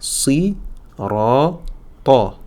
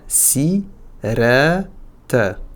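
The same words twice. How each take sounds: First: The final t is emphatic, tongue back raised. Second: The final t is plain, tongue back relaxed. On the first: The speaker calls it right. "Donc ce qui nous donne ici" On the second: The speaker calls it wrong. "Et pas"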